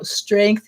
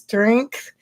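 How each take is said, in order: First: The final th sound is pronounced normally. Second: The final th sound is replaced by another sound.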